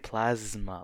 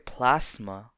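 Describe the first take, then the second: First: The middle consonant is a buzzing Z sound. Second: The middle consonant is a hissing S sound. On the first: The speaker calls it right. "you have to say it with a Z sound" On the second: The speaker calls it wrong. "you don't say plasma"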